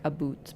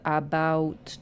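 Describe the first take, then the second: First: "a boot" with a rounded oo vowel; Canadian rounding. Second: Said in the usual way. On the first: Shown as a demonstration. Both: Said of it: "make our vowels a little bit more round".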